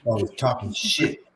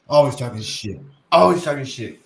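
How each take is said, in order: First: Said in the usual way. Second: Louder, emphatic catchphrase; louder repeat. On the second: Retold or imitated. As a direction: punch it harder and louder.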